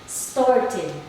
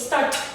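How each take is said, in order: First: The word ends with an extra id syllable. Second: The word ends with a plain t sound. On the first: The speaker calls it right. "we're gonna use the id" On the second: The speaker calls it wrong. "We change the ed to t. So we say start. It sounds weird"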